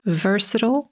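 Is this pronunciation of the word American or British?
American. It is said with an American pronunciation. "Tak wymówi to słowo Amerykanin"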